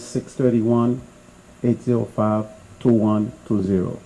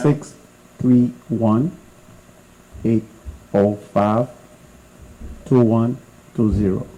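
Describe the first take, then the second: First: The number is read at normal speed. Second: The number is read slowly.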